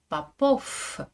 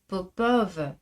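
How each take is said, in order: First: The name ends with a voiceless f sound. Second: The name ends with a voiced v sound. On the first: "en russe, ce nom de famille est prononcé Popov, f, avec l'effet de la consonne sourde finale" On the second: "En français, je dis Popov"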